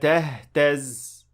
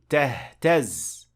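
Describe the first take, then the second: First: The end of the word is unstressed. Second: The end of the word is stressed. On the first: The speaker calls it wrong. "That is not correct" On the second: The speaker calls it right. "So we say"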